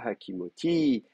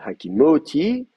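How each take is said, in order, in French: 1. L'accent tombe sur la dernière syllabe. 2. L'accent tombe avant la dernière syllabe. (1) "l'accent, il est sur le ti" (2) "on ne dit pas euh, euh, hakimoti"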